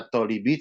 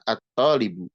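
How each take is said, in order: First: The word ends in the vowel i. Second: The word ends in the vowel u. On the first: The speaker calls it wrong. "tidak dibaca at-talibi" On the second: The speaker calls it right. "tapi dibacanya adalah at-talibu"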